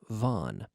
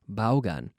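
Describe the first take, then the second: First: It sounds like the short word von. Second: More of the written letters are sounded out. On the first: "it's pronounced as if it were V O N" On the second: "we have all these letters, so we often pronounce it Vaughan"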